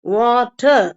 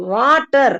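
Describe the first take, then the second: First: வாட்டர் with rounded W and the final r dropped; rounded W, silent R. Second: வாட்டர் with a flat, unrounded W and final r. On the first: Teacher modelling the word for learners, rounded W, no r. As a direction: round the lips into வாட்டர், end on an open vowel. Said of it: "இந்த ஆர் சவுண்டையும் நிறுத்திக்கணும்". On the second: Teacher showing learners the flat way to avoid. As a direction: say வாட்டர் flatly, lips unrounded, r sounded. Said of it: "பிளாட்டா வராம". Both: Shown as a demonstration.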